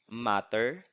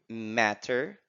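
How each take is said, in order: First: The vowel is an open 'ah' sound. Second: The vowel is the American 'ae' sound.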